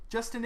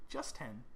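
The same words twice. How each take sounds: First: "Justin" run together with a weak second syllable; name as one word. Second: "Just ten" split, with a full "ten"; name as two words. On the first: Host reading out subscriber's name, Justin as one word. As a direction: say "Justin" as the ordinary first name, higher. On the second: Host working out a subscriber's pun, Just plus a full ten. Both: Real, not acted. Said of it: "Oh, like, Just ten".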